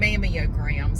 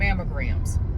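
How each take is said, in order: First: The word has four syllables, mam-mee-o-grams. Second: The word has three syllables, mam-mo-grams.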